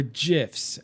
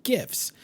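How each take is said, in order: First: "gifs" said with a J sound; soft-g gifs. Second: Said in the usual way. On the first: Shown as a demonstration. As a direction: start "gifs" like "jiffy". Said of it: "as some people call 'em". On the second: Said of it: "I call 'em gifts".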